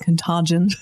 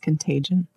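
First: The word is said in a fancier, exotic way. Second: The word is said in a plain American way. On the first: This version would sound too fancy to Americans. The speaker calls it wrong. "something as exotic and lovely as Contagion" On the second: This is the ordinary American way to say it. The speaker calls it right. "It's got to be. This is America"

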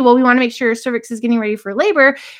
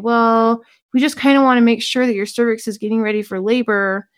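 First: It is said in a plain, normal voice. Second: It is said in a mocking, dumb-sounding voice.

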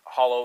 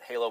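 First: The first syllable has a short 'o' vowel. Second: The first syllable has a long 'ay' vowel. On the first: "Some people pronounce it hollow" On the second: "some people pronounce it halo"

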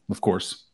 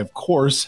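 First: It is said in a weary, annoyed tone. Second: It is said in a warm, welcoming tone. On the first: The guest is grudgingly tolerated. "Oh, God, we got Sex Panther. Like, take a fucking day off" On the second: The guest is gladly welcomed. "We got Dr. Earns. Welcome, Doctor. Glad you're here"

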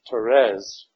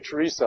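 First: The name is said the French way. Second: The name is said the English way. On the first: The speaker calls it right. "it is pronounced Therese, the French way" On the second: The speaker calls it wrong. "I'm going to say Teresa"

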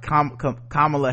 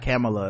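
First: The name is said slowly and drawn out. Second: The name is said quickly and compactly. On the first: The speaker calls it wrong. "I always say like Kamala Harris" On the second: The speaker calls it right. "it's really like Kamala or something like that. It's like something fast"

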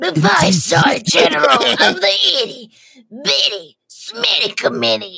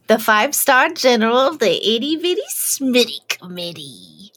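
First: It is said with a loud, forceful blast. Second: It is said with ordinary energy.

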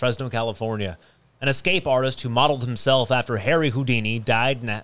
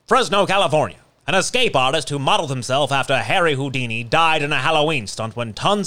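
First: It is read in a plain, ordinary voice. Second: It is read like an old newscaster.

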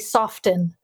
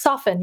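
First: The t sound is pronounced. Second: The t sound is silent. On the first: The speaker calls it wrong. "You don't say soften" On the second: The speaker calls it right. "it gets rid of the t"

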